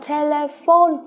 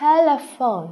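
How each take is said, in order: First: The O sound is hard and clipped. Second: The O sound is soft and smooth. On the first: The speaker calls it wrong. "Chúng ta không nói là telephone rất là cứng, đó là tiếng Việt" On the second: The speaker calls it right. "cái âm O rất là mềm"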